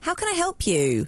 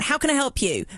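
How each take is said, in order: First: It is said in a friendly, nice tone. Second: It is said in a passive-aggressive tone.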